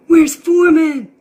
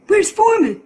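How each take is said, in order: First: Much louder, slow and stretched; slow loud demand. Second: Much higher and louder demand; insistent question. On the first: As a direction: owner demands his dog again, slower and louder. Asks again, more urgent. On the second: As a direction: owner cuts in asking where his dog is, loud. Owner asks for his dog. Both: Acted.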